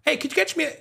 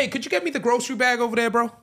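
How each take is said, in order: First: Much higher mock South African accent; a playful South African voice. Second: Higher mock South African accent; a hammed-up South African voice. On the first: Trying a South African accent for his friends. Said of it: "South African bag". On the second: Doing a South African accent on request from his co-host. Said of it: "I've went into my, uh, South African bag".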